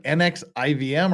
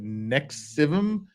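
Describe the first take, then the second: First: N X I V M letter by letter; spelled out. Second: "Nexivum" sounded out as one word; read as a word. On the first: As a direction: spell out "N X I V M", each letter named. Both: Shown as a demonstration. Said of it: "Is there a pronunciation for this?".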